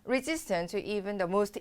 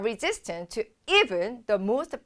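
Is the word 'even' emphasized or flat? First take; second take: flat; emphasized. First: The word 'even' is said flatly, without emphasis. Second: The word 'even' is said with strong emphasis. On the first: The speaker calls it wrong. "이렇게 하는 게 아니죠" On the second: The speaker calls it right. "약간 느낌을 살려주셔야 되는데요"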